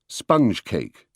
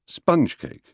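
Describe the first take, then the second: First: It uses the usual British stress pattern. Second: It uses the American stress pattern. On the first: This is the usual British way. "the more usual accents in British English" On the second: This is the American way. "how they are said in America"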